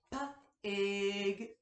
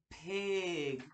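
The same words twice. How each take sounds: First: "P-ig" split into P and ig; sounded out. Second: Said in the usual way. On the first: Shown as a demonstration. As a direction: pull "P-ig" apart sound by sound. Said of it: "break down the beginning, middle, and ending sound". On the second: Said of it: "then say the whole word".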